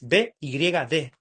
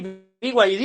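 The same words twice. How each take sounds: First: The letters are spoken the Spanish way. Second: The letters are spoken the English way.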